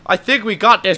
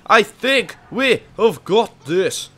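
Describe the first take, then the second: First: Said in the usual way. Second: Slow "have got", each word spaced out; emphatic, separated words. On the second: Real, not acted. Player reassuring the boys, slow emphatic "have got". Repeats it with fuller wording.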